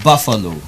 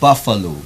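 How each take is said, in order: First: The first vowel matches the one in cup. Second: The first vowel matches the one in cup.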